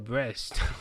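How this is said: The name is said with a French accent. "just say it in a French accent"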